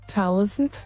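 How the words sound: It is pronounced like German 'Tausend'. "it's thousand in Germany"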